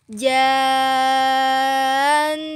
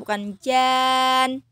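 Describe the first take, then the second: First: The final nasal n is held long. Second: The final nasal n is cut short. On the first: The speaker calls it right. "harusnya nunnya ditahan dulu" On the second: The speaker calls it wrong. "bukan jan. Salah ya"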